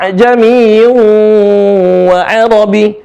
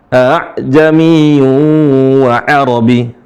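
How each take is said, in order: First: A'jami read with full ibdal; wrong ibdal reading. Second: Slow tashil A'jamiyu; eased tashil reading. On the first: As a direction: demo the wrong long-vowel A'jami. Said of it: "Kalau pakai kaidah ibdal". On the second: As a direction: stretch A'jamiyu gently, hamza eased. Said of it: "A'jamiyu dibaca". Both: Shown as a demonstration.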